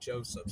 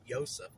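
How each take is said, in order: First: The name begins with a J sound. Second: The name begins with a Y sound. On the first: "she can't pronounce the J like Joseph" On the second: "so she calls him Yosef"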